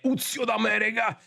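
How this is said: It is said in a marked regional accent. The speaker calls it right. "bisogna pronunciarlo anche con l'accento corretto"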